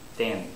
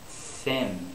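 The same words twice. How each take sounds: First: The th sound has too little air. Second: The th sound has plenty of air. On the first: The speaker calls it wrong. "I didn't have enough air" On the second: The speaker calls it right. "Thin is the correct way to do it"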